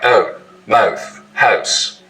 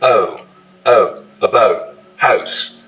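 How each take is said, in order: First: Moh-th, hoh-se; tidewater raising. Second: House like a boat, raised oh; tidewater raising. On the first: Host showing Virginia tidewater raising. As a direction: mouth and house with a raised oh. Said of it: "it's raising". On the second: Host showing tidewater raising again. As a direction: house rhyming toward boat. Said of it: "This feature is called tidewater raising". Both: Shown as a demonstration.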